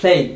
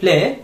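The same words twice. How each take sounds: First: "play" with a full "ay" glide; correct pronunciation. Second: "play" cut to "pleh", no final glide; wrong pronunciation. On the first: Teacher corrects students' ending, "play" with full ay glide. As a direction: end "play" on a clear ei sound, falling. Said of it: "it's play". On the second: Teacher shows students how not to say it, mispronounced "play". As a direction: say "play" with a bare e ending, rising. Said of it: "আপনি এটাকে প্লে বলবেন না". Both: Shown as a demonstration.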